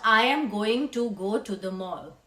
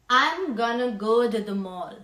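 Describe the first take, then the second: First: Every word is said fully and separately. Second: The words are contracted and run together quickly. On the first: The speaker calls it wrong. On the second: The speaker calls it right. "So this sentence will become"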